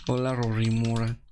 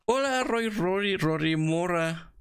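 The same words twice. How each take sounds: First: Said in the usual way. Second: High, drawn-out singsong hello; hammed-up greeting. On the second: Greeting Rory Mora in the game, drawn-out singsong hello. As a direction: stretch out the name teasingly.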